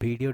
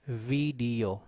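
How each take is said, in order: First: It starts with a different, non-v sound. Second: It starts with a v, teeth on lip. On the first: The speaker calls it wrong. "this is not video" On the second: The speaker calls it right. "in fact, it is video"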